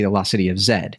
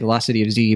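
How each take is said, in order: First: The final letter is pronounced 'zed'. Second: The final letter is pronounced 'zee'. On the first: This is how people overseas say it. "overseas they say" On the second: This is how people at home say it. "we say"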